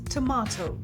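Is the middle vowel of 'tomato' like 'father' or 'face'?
father. The middle vowel sounds like the one in 'father'. "pronounced with an R sound like in father"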